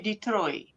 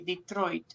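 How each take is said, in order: First: The final T sound is dropped. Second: The final T sound is clearly pronounced. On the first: The speaker calls it wrong. "You don't say Detroit" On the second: The speaker calls it right. "you say the T at the end"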